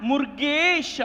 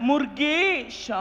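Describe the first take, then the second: Both takes have the same delivery.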